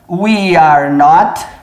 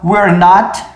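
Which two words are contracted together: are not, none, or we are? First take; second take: none; we are. First: All three words are said in full. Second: We and are merge into one syllable.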